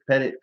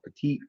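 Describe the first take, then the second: First: The name sounds like pettit, ending in -it. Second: The name sounds like the word petite. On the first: The speaker calls it right. "I knew that" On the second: The speaker calls it wrong. "I'm about to pronounce this wrong"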